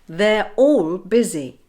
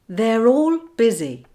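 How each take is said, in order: First: The words are kept apart with no R link. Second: An R sound joins the words smoothly together. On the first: "I'll say a phrase without linking" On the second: "then I'll say it with the linking"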